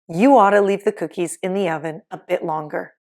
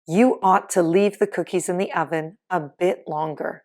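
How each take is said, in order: First: Ought to is reduced quickly to oughta. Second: Ought to is said fully, with two distinct words.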